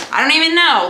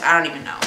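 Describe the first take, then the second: First: The repeat pushed higher and louder; higher, louder exasperated second take. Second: Said in the usual way. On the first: Shown as a demonstration. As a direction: throw up your hands on the repeat. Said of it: "repeated higher and louder". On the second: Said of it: "first take, said plainly".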